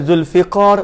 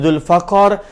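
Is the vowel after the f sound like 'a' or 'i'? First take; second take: i; a. First: The vowel after the f is 'i'. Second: The vowel after the f is 'a'. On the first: "bi kasril fa, fa baris bawah" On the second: "bi fathil fa"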